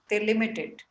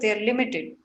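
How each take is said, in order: First: The words 'they are' are contracted. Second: The words 'they are' are said in full. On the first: The speaker calls it right. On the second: The speaker calls it wrong.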